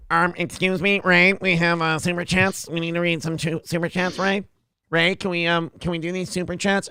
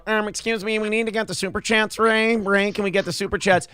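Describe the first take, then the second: First: Put-on pestering voice at ordinary pitch; Producer Joe. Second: Higher put-on pestering voice; Producer Joe. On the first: Producer butting in about super chats, mock pestering voice. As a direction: interrupt in a mocking put-on voice. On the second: Producer interrupting for super chats, higher mock pestering voice. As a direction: butt in with a higher, mocking voice. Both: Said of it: "his voice is a little higher".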